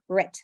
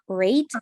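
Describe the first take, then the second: First: The syllable has a short reduced vowel. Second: The syllable has a full 'ay' vowel. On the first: The speaker calls it right. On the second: The speaker calls it wrong. "not rate"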